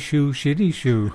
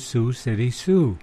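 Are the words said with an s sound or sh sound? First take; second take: sh sound; s sound. First: The words begin with an sh sound. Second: The words begin with a clear s sound. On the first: The speaker calls it wrong. "He'd say Shoo Shitty Shoo" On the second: The speaker calls it right. "he could not say Sioux City Sioux"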